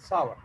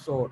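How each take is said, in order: First: It is said in a careful standard way. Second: It is said in a common casual way. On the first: The speaker calls it right. "but the right pronunciation, that is sour" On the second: The speaker calls it wrong. "Usually this is also called sour"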